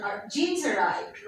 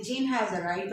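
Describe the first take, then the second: First: "Jeans arrived" with has squeezed into an s; contracted Jean's. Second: Said in the usual way. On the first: Shown as a demonstration. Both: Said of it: "rather than saying".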